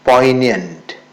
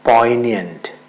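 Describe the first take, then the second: No difference in how they are said.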